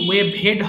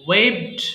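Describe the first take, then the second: First: The ending is said as an extra syllable. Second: The ending joins the word as one syllable. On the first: The speaker calls it wrong. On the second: The speaker calls it right.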